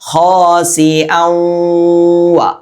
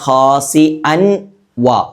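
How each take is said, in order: First: The n merges into a nasal doubled w. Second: The n is said separately before the w. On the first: The speaker calls it right. "ഔവ ഔവ എന്ന് ചേർത്തു" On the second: The speaker calls it wrong. "അൻ വ എന്ന് പറയാതെ"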